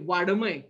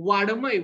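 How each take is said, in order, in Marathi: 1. मधला व्यंजन कठोर ड आहे. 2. मधला व्यंजन कठोर ड आहे.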